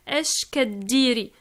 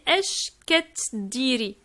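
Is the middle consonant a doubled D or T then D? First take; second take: doubled D; T then D. First: A single long, stressed doubled D is heard. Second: A T sound is followed by a D sound. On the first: "on prononce comme si le T c'est un D. Donc ça fait un, un D euh, doublé sur lequel on insiste" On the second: "normalement c'est Esh Keddiri"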